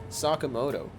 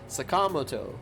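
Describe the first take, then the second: First: The syllables are spoken evenly, without odd stress. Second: The syllables carry uneven, English-style stress. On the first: The speaker calls it right. "It's Sakamoto. you can just say it like that with a proper articulation" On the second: The speaker calls it wrong. "Not Sakamoto. They're putting stresses in weird ways"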